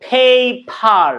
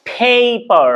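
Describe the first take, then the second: First: Paper said the wrong, odd-sounding way; the mistaken paper. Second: Paper with a puff of air on the first p; paper, aspirated start. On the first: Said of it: "এভাবে বলছি না". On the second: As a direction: breathe out on the P of paper. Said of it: "not, আমি বলছি না যে". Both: Shown as a demonstration.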